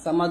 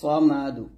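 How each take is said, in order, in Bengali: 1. এটি একটি সাধারণ, হালকা 's' ধ্বনি দিয়ে শুরু হয়। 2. এটি একটি ভারী, জোরালো 's' ধ্বনি দিয়ে শুরু হয়। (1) "সামাদ বলবেন না সামাদ বলে এটা বড় ভুল হবে" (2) "বলতে হবে"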